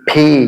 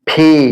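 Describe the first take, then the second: No difference in how they are said.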